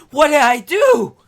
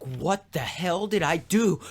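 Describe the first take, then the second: First: High, loud mock wail; horrified outcry. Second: Drawn-out mock dismay, slow; horrified. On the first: Macbeth panicking over what he has done, horrified outcry. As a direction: cry it out in exaggerated horror. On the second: Macbeth seeing blood on his hands, horrified. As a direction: stretch the question in acted horror. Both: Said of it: "horrified about the, this, the blood".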